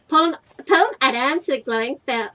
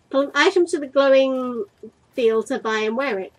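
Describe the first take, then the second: First: Put-on American accent. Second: Said in the usual way. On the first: Player voices the game's on-screen instruction, American accent. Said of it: "I gave you such an American accent". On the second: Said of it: "I don't know why I gave you".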